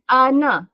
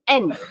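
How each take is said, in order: First: A vowel follows the n sound. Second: The n ends the syllable with no vowel. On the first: The speaker calls it wrong. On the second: The speaker calls it right. "Kita sepatutnya matikan nun"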